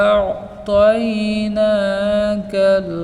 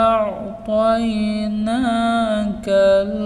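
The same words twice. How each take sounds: Both takes have the same delivery.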